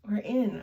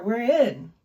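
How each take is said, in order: First: Said in the usual way. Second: Loud triumphant announcement. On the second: Real, not acted. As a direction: proclaim you made it in. Triumphant entry into menu.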